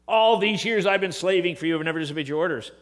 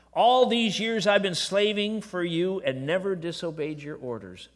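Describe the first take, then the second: First: Louder, faster, the grudging servant's complaint; resentful older brother. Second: Said in the usual way. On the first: Retold or imitated. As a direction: fire it off like a sulking son keeping score. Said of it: "It doesn't say". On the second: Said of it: "Listen to this".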